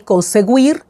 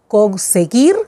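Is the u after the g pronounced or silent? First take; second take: pronounced; silent. First: The u after the g is pronounced. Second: The u after the g is silent. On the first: The speaker calls it wrong. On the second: The speaker calls it right.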